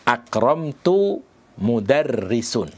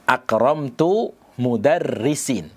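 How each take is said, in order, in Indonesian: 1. Kata terakhir diakhiri bunyi u. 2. Kata terakhir diakhiri bunyi i. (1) "tidak boleh dibaca marfu'" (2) "Dengan mengkasrah mudarrisin"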